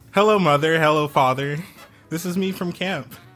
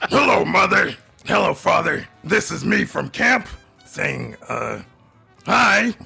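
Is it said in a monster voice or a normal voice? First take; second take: normal voice; monster voice. First: It is said in the speaker's normal voice. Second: It is said in a put-on monster voice.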